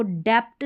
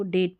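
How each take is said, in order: First: डेप्ट with a stop wrongly sounded before t; mispronounced डेप्ट. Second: डेट with nothing before the t; silent b. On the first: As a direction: sound the extra consonant in डेप्ट. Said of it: "डेप्ट नहीं पढ़ते". (डेप्ट में ट से पहले प बोलकर ग़लत उच्चारण) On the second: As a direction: go straight to t in डेट. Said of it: "इसको डेट पढ़ते हैं". (डेट, बिना ब के) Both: Shown as a demonstration.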